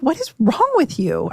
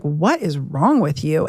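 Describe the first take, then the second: First: Higher-pitched exasperated demand, pitch dropping at the end; exasperated retort. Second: Low, slow, drawn-out exasperation; exasperated retort. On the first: Wife to husband acting irrationally, exasperated. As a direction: imitate yourself challenging an irrational partner. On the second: Wife confronting husband about his mood, slow exasperation. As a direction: stretch it out in a lower, incredulous tone. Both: Retold or imitated.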